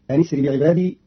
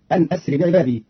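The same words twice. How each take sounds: First: "أن اسر" said anisri, the hamza dropped; connecting hamza. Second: Said in the usual way. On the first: Shown as a demonstration. Teacher showing Qalun's reading, "أن اسر" run together as anisri. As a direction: link the n straight into "اسر" with an i. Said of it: "بهمز وصل مكسورة في الابتداء". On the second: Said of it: "قرأ قالون كلمتي أن أسر".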